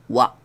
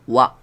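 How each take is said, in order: Both takes have the same delivery.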